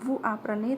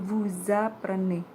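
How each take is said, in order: First: The words are separate with no z sound. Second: A z sound links the two words together. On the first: The speaker calls it wrong. "pembacaannya bukan vous apprenez" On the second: The speaker calls it right. "tetapi menjadi vous apprenez"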